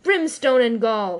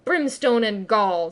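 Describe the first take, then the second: First: Loud, slow thundering oath. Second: Slow mock-Hook retort; retort in Hook's voice. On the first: A narrator's reading. Hook to his crew, slow thundering roar. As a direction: roar the curse out. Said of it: "thundered Hook". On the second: Peter mocking Hook, slow echoing retort. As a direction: fling Hook's own oath back. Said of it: "the voice retorted".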